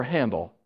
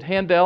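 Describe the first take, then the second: First: HANDEL as HAN-dl, like handle; reduced ending. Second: HANDEL as han-DELL, full EL ending; stressed second syllable. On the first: Preacher offering congregation the other option, Handel said like handle. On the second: Preacher asking congregation which name is right, Handel as han-DELL. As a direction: say Handel with a clear DELL at the end. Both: Shown as a demonstration. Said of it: "is it Handel or Handel?".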